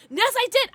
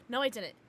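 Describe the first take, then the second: First: Much higher, louder "Yes, I did"; high loud insisting; insistent yes. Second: Said in the usual way. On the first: Pretend. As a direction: argue back with yourself gleefully. Arguing with herself.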